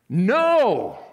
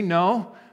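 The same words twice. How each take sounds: First: It is said forcefully and emphatically. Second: It is said mildly, without force.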